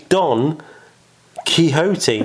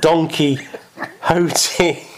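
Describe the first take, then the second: First: Quixote is pronounced the Spanish way. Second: Quixote is pronounced the English way. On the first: The speaker calls it right. "it's a Spanish book. It's Don Quixote" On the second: The speaker calls it wrong. "not Don Quixote"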